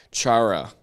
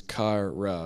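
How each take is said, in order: First: "Chara" with an English ch, as in chart; own anglicised pronunciation. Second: "kara" with a hard k at the start; by-the-guide pronunciation. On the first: Teacher avoiding the Greek pronunciation, anglicised "Chara". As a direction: say "Chara" your own way, ch as in church. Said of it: "the way I wanna say it". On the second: Teacher reading out the listed pronunciation, hard-k "kara". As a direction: say "kara" with k, not English ch. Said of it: "as the pronunciation says". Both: Shown as a demonstration.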